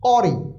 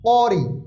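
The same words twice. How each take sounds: No difference in how they are said.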